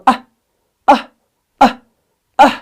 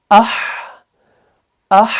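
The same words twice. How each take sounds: First: "आह" chopped short with the h stopped; cut-off wrong reading. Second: "आह" with a long airy h fading out; correct breathy release. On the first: Teacher showing what will not do, short jerked "आह". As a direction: break the breath abruptly on "आह". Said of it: "नहीं पढ़ने में आएगा". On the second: Teacher showing how we will read it, "आह" with flowing breath. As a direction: keep breathing through the end of "आह". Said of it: "हम करेंगे". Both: Shown as a demonstration.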